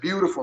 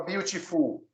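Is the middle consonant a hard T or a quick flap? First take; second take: flap; hard T. First: The middle consonant is a quick flap. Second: The middle consonant is a hard T. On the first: The speaker calls it right. "o T do beautiful é R" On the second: The speaker calls it wrong. "Você nunca viu alguém falar beautiful? Nunca"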